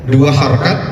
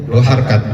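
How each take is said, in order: No difference in how they are said.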